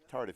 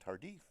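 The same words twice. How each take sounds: First: The name is said with an English pronunciation. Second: The name is said with a French pronunciation. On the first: The speaker calls it right. "but it is uh" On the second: The speaker calls it wrong. "the French Canadian pronunciation"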